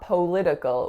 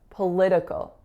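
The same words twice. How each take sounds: First: The first vowel is a full O sound. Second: The first vowel is a reduced schwa. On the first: The speaker calls it wrong. "not political with an O sound" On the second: The speaker calls it right. "it's another schwa"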